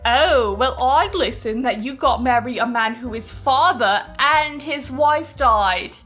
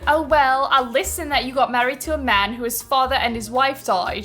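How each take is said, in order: First: It is read in a mocking, sneering tone. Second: It is read in a plain, neutral tone.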